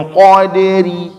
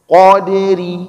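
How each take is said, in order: No difference in how they are said.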